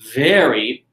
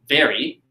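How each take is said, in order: First: The word is drawn out and lengthened. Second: The word is said short and quick. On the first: The object is bigger. "when I lengthen, when I increase the amount of time that I said the word very" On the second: The object is less big. "as opposed to very"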